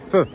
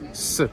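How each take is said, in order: First: The consonant is th, with the tongue out. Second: The consonant is a plain s sound. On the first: This is how it is said in Spain. "En Espagne, on montre la langue" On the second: This is how it is said in Mexico. "Toujours se, comme un S"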